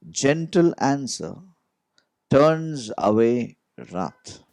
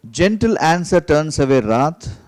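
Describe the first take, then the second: First: Slow, gentle reading. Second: Louder reading. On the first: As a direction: read it slowly and gently. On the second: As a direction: read out firmly, a bit louder. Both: Shown as a demonstration. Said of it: "Let me read the word again".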